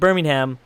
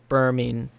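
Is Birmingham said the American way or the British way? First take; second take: American; British. First: It is said the American way, as in Alabama. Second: It is said the British way, as in England. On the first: The speaker calls it wrong. "it's like Birmingham from Alabama" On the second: The speaker calls it right. "I think it is Birmingham"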